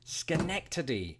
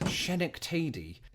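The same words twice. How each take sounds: First: It begins with an sk sound. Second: It begins with an sh sound. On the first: The speaker calls it right. "its true delivery" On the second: The speaker calls it wrong. "I believe my first guess was Schenectady"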